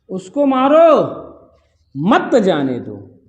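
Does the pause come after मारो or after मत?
after मारो. The pause comes after मारो.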